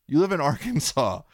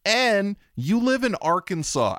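First: Laughing repeat. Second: "live" drawn out high, slow; stress on live. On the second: Host stressing to the guest where she lives, slow and high. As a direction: lean hard on "live in Arkansas". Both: Real, not acted. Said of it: "I can't stress that enough".

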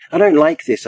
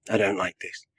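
First: Raised, louder protest with a high peak; crying out. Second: Quiet unease. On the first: Rabbi hovering over the mourners unheard, crying out. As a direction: cry it out in alarm. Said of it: "I cry". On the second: Rabbi finding himself out of his body, quietly uneasy. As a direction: say it softly, almost to yourself. First take, before crying it out. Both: A narrator's reading.

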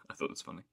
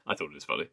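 First: Softer, whispered again to herself; whispered repeat. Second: Said in the usual way. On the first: Real, not acted. Repeating her opinion to her cohost as a teasing whisper. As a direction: drop to a playful whisper.

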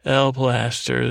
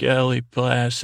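First: "L Plaster" with L as the bare letter, slowly; corrected name reading. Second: ELLIE PLAS said as "Elly", two syllables, cut off; mistaken name reading. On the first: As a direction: say "L Plaster" slowly, just "el", no ee after L. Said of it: "I always wanna say Ellie". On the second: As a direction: say "Ellie Plas-" with an ee ending on Ellie, then break off. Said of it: "Why do I always wanna say Ellie". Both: Real, not acted.

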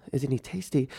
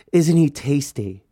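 First: Quieter, taken-aback repeat; softly puzzled, acted-out reaction; baffled echo. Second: Slow, savoring question; imitating a relative's creepy relish; suggestive admiration. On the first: His baffled repeat of her question. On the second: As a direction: linger on it as if admiring someone a little too much. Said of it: "but the way she said it".

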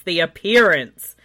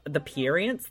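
First: Appearance said louder with a falling end; firm, louder, falling last repeat; loud final repeat. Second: Said in the usual way. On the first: Shown as a demonstration. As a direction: punch appearance to close it.

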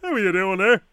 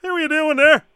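First: Acting as Leo. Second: Leo's line again, louder and higher; a bigger, brighter customer greeting; a hammed-up Leo greeting; louder Leo take. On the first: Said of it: "I'm gonna pretend I'm Leo". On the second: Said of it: "Now let's just slow it right down".

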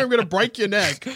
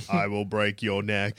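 First: Brutal warrior threat, raised pitch; barbarian. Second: Low, slow distorted hero voice; deep robotic voice changer; voice modulator. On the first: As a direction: roar it like a barbarian. Threatening the Green Goblin. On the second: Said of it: "That's what the voice modulator says". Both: Pretend.

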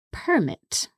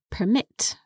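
First: "permit" stressed on the first syllable; noun stress. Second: "permit" stressed on the second syllable; verb stress. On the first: Teacher showing the noun form, "permit" stressed up front. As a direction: say "permit" as the noun, PER-mit. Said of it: "that would be pronounced permit". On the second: Teacher giving the verb for allowing, "permit" stressed at the end. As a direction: say "permit" as the verb, per-MIT. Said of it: "the verb permit". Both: Shown as a demonstration.

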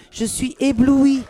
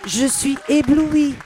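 First: Dazzled. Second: Loud, slow, drawn-out gush of wonder; dazzled. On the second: Moved by meeting Paloma, she gushes loudly and slowly. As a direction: savour every syllable of "éblouie", louder. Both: Real, not acted. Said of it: "ce petit moment de grâce".

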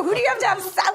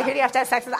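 First: Exasperated, high. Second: Said in the usual way. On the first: Retold or imitated. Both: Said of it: "I was about to say".

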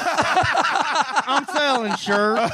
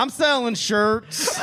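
First: Very slow winding-down toy voice; pull string toy. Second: Pull string toy. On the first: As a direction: drag it like a dying battery. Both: Pretend. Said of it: "I was repeating".

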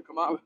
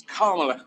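First: "Kamala" with stress on the second syllable, ka-MAH-la; wrong pronunciation. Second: "Kamala" with stress on the first syllable, KAH-ma-la; correct name pronunciation. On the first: Admitting to the interviewer how he used to say it: "Kamala" stressed on the second syllable. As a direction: put the weight on the middle MAH of "Kamala". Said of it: "I kept calling her Kamala".

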